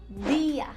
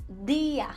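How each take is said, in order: Both takes have the same delivery.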